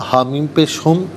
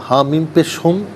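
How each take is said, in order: Both takes have the same delivery.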